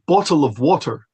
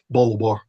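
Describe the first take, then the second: First: Said clearly in a standard accent with full syllables. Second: Said in a Scottish accent, squeezed into one word. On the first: "Instead of" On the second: "working class accents from parts of Scotland ... different rhythm"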